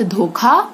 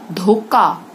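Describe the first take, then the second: First: Said in the usual way. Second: धोखा said as "dhokaa"; hard unaspirated "k" in धोखा; wrong consonant. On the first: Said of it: "सही". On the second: Shown as a demonstration. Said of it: "गलत".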